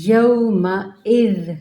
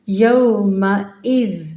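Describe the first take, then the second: Both takes have the same delivery.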